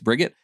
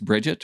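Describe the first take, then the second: First: The name is pronounced the German way. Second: The name is pronounced the English way. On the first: "But I go back to my German" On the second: "maybe it's Bridget"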